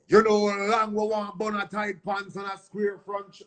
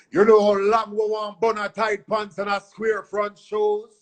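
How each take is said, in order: First: Lightly voiced deejay intro. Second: High put-on mimic of a dancehall deejay. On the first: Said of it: "when I did the intro". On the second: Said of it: "I just went in there and mimicked [name]".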